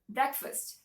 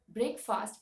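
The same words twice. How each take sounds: First: The first part is said as a reduced 'brek'. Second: The first part is said as a full 'break'. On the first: The speaker calls it right. "it's breakfast" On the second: The speaker calls it wrong. "it is not called breakfast"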